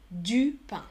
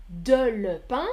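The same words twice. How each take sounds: First: "du" as one clear syllable before "pain"; correct-form demonstration. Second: "de le" as two separate, deliberate words before "pain"; wrong-form demonstration. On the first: Teacher giving students what one says, "du" as one clean word. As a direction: say "du" as a single word, then "pain" falling. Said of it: "on dit du pain". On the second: Teacher showing students what one doesn't say, "de le" spelled out word by word. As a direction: set "de le" apart, each word fully sounded. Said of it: "on ne dit pas". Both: Shown as a demonstration.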